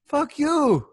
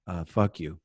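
First: High, sweetly naive fuck you; sweet, innocent. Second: Said in the usual way. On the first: Retold or imitated. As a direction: say it sweetly, with no idea what it means. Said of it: "like, so sweet". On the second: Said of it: "I go".

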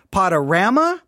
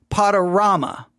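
First: "Panorama" asked with a rising question, "Pod-uh-RAM-uh" with a flat a; trying out "Panorama" as "Pod-uh-RAM-uh"; first pronunciation option. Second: "Panorama" stated with a falling tune, "Pod-uh-RAH-muh" with a broad ah; settling on "Panorama" as "Pod-uh-RAH-muh"; second pronunciation option. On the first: Host asks listeners which way sounds right, rising. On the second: Host offers the other choice to listeners, falling. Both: Shown as a demonstration. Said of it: "your only two options".

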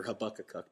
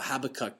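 First: Habakkuk stressed on the second syllable. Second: Habakkuk stressed on the first syllable. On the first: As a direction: say Habakkuk as ha-BAK-kuk. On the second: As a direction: say Habakkuk as HAB-akkuk. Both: Shown as a demonstration. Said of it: "depending on which emphasis the syllable you use".

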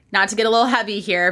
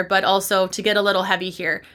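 First: Rushed, breezy throwaway; fast dismissive aside; quick disclaimer. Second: A sincere, grounded correction; meaning it. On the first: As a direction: toss it off fast as if taking it back. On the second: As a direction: lean on also to own the heaviness. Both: Shown as a demonstration.

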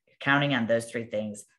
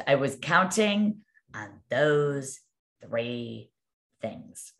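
First: Said in the usual way. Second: Very slow, word by word, fading away at the end; retold dismay. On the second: Crying agent to her manager, retold drawn-out dismay. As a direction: imitate a crushed agent spelling out her lost hopes. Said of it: "she's crying".

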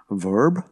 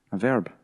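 First: Mock American accent, questioning; imitated American accent. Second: Said in the usual way. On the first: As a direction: say VERB in a put-on American accent. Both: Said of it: "I was just doing it in your accent".

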